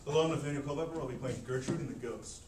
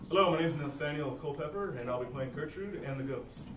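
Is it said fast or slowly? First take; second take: fast; slowly. First: It is said fast. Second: It is said slowly.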